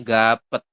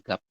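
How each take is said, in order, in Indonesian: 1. Setiap huruf dibunyikan, jadi ada dua suku kata. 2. Huruf terakhir tidak dibunyikan, jadi hanya ada satu suku kata. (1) "kalau dibaca semua kan jadinya gapet" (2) "dibacanya hanya gap saja"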